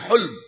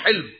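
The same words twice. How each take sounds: First: The first vowel is a 'u' sound. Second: The first vowel is an 'i' sound. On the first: "ہا پر ضمہ بھی پڑھا جاتا ہے، پیش بھی پڑھا جاتا ہے" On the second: "اس کے نیچے کسرہ بھی پڑھا جاتا ہے، زیر بھی پڑھا جاتا ہے"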